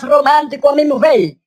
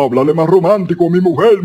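First: Comic fine, thinned-out voice; thin voice trying to sound romantic. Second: Comic husky voice, quick run of words; hoarse man wishing to sound romantic. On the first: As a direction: say it in a put-on dainty voice. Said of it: "Ahora yo tengo la voz más fina". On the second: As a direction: say it in a rough put-on voice. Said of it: "esta voz no es nada romántica". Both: Acted.

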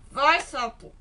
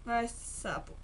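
First: Louder push, vai sapo shouted; urging shout. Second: Said in the usual way. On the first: Real, not acted. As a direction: shove the frog on with a loud cry. Sending frog through hole. (grito de incentivo, mais alto)

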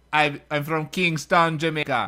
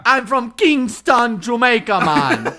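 First: Jamaican accent. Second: Louder, slow hammed-up Jamaican accent, laughing; mock Jamaican accent. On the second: Friend copying the given line, loud hammed-up Jamaican accent. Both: Shown as a demonstration. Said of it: "Say this, say this".

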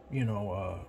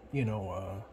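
No difference in how they are said.

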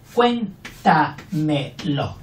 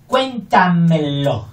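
First: Cuéntamelo stretched very slowly; syllable drill. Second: Cuéntamelo said slowly and clearly; slow, careful cuéntamelo; slow demo. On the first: Teacher slowly splitting cuéntamelo for pupils. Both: Shown as a demonstration.

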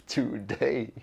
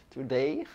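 First: Laughing. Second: Said in the usual way. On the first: Shown as a demonstration.

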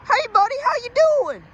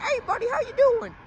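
First: Put-on overdone southern accent, high and loud; exaggerated southern cop. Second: Friendly southern officer, high-pitched imitation; nice southern accent. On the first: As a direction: hail someone as a hammed-up southern officer. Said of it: "Not like that". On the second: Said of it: "In his nice southern accent".

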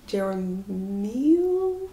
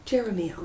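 First: "Jeremiel" drawn out slowly and unsure, syllables trailing off; a drawn-out unsure try at "Jeremiel"; hesitant mispronunciation. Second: "Jeremiel" said as JER-eh-mee-el with a falling tune; "Jeremiel" landed with a decisive fall; settled pronunciation. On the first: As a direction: stumble through "Jeremiel" very slowly, questioning. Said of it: "No, that doesn't sound right". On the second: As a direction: say "Jeremiel" firmly in four syllables. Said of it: "let's say that". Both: Shown as a demonstration.

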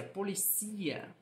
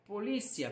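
First: Policia said as po-li-CI-a, CI stressed; slow po-li-CI-a, weight on CI; Spanish stress on CI. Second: Polícia with LI stressed; po-LI-cia, weight on the middle. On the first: Teacher contrasting two languages, policia stressed on CI. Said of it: "mas ela é pronunciada como". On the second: Teacher contrasting two languages, Polícia stressed on LI. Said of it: "a sílaba tônica é o li". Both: Shown as a demonstration.

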